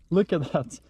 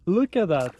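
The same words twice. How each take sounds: First: Said in the usual way. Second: Louder, delighted look at that; excited. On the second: Real, not acted. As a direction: point it out with delight. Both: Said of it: "repeated Look at that".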